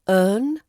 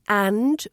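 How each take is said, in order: First: The word is a weak vowel plus n. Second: The word is said with full vowel and d. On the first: "which becomes earn or n" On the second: "Another one is and"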